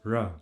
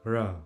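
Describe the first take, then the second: Both takes have the same delivery.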